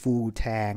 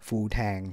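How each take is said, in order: First: The vowel in tang is drawn out long. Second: The vowel in tang is short.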